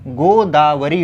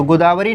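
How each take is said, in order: First: गोदावरी slowly, ending on a held "ree"; long final ī. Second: गोदावरी ending on a quick short ri; short final i. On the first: Teacher correcting it for students, long-ending गोदावरी. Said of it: "गोदावरी होता है". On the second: Teacher rejecting the misspelling, short-ending गोदावरी. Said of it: "गोदावरी नहीं होता". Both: Shown as a demonstration.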